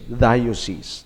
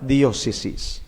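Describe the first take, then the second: First: The word is pronounced in the English way. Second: The word is pronounced in the Hiligaynon way. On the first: "Ang dayo, that's English" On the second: "when we pronounce the word diocese in Hiligaynon, ... but diocese"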